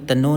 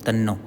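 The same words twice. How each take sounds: First: The n sound is short and single. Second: The n sound is held and doubled. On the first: The speaker calls it wrong. "अब यहाँ तन्नो नहीं बोलेंगे हम" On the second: The speaker calls it right. "ता न तन फिर नो"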